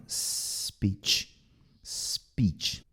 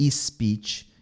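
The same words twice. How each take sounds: First: SPEECH from a soft, voiceless hiss; little pure S. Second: SPEECH with an added "ee" before S, or a buzzed Z; wrong pronunciations. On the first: Teacher corrects learners, soft S with no vowel before. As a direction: hold a gentle S, then a quiet "peech". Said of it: "É um Szinho". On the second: Teacher shows learners the mistake, added vowel. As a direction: put a Brazilian "ee" before "speech". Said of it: "Não é speech". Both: Shown as a demonstration.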